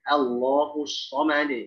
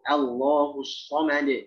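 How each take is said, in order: No difference in how they are said.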